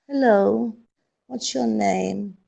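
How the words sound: It is said in a sad, gloomy tone. "but as if you're sad"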